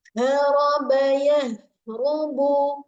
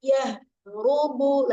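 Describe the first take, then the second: First: Haraba, yahrubu drawn out very slowly with louder h; slow drill. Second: Yahrubu very slow with a clear breathy h; corrected yahrubu. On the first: Teacher models yahrubu slowly for students. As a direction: stretch each syllable slowly. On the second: Teacher corrects yahrubu for students. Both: Shown as a demonstration. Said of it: "bukan yahrubu".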